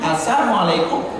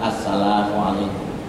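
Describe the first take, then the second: First: It is said fast, with a syllable swallowed. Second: It is said slowly, with every syllable clear. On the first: It turns into a curse wishing harm on the listener. The speaker calls it wrong. "saking buru-burunya" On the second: It is a proper greeting wishing peace. The speaker calls it right.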